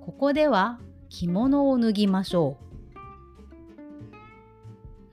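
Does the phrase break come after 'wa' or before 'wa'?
after wa. The phrase break comes just after 'wa'. Take off your kimono here. "区切りによっては…例えばこれはどうでしょう"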